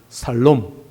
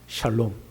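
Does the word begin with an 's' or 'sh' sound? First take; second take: s; sh. First: The word begins with a plain s sound. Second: The word begins with an sh sound. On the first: The speaker calls it wrong. "경상도 사람들이 발음을 잘 못합니다" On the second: The speaker calls it right. "샬롬 해야 되는데"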